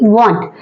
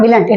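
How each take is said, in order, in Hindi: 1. इसे एक अक्षर में बोला जाता है, 'won't'। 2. इसे दो अक्षरों में बोला जाता है, 'willant'। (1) "it is W O N T want" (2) "It is not willant"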